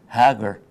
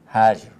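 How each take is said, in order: First: The middle consonant sounds like English hard g. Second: The middle consonant sounds like English j.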